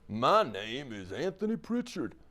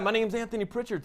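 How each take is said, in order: First: It is said in a low-pitched voice. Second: It is said in a polished announcer voice. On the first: "a low voice" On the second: "a radio voice"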